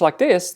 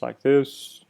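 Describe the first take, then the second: First: The voice is high in pitch. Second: The voice is low and droning. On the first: The speaker is more excited. "if I speak really high in pitch like this" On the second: The speaker is not interested or excited. "if I speak in a really low, droning voice like this"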